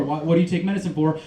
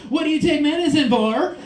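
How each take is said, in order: First: Said in the usual way. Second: Higher-pitched voice, lifting at the end; retold question pitched up in curiosity; imitated nosy question. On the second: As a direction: imitate her asking, raised and pointed. Acts her asking the question.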